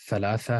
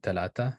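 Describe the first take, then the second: First: The consonants are th sounds. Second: The consonants are t sounds. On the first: This is the older form of the word. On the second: This is the form used in some modern dialects.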